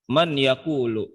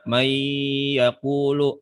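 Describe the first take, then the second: First: The n is pronounced clearly before the y. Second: The n merges into a nasalized y sound. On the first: The speaker calls it wrong. "Yang ini kagak beres nih yang begini nih" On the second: The speaker calls it right. "bener nih yang begini nih"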